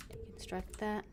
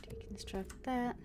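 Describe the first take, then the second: No difference in how they are said.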